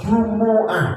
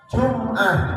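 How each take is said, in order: First: A u vowel is sounded after the m. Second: No vowel is sounded after the m. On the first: "mimnya domah" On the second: "mimnya mati"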